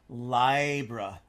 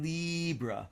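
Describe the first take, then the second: First: The first vowel sounds like 'eye'. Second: The first vowel sounds like 'ee'. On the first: The sign keeps its power. The speaker calls it right. "that vertical eye, ... much more vertical and strong" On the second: The sign sounds weak and disempowered. The speaker calls it wrong. "which is very horizontal and kind of wheedly"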